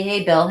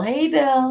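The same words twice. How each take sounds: First: Said in the usual way. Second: Bill said high and bright-pitched, a cheery hello; sing-song Hey, Bill greeting; excited greeting. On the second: Shown as a demonstration. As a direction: call out Hey, Bill much higher.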